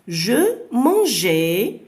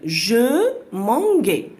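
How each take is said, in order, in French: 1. Le g est un son 'zh' doux. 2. Le g est un son 'g' dur. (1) "nous voulons entendre le son J" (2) "le G avec le A, ça se prononce ga"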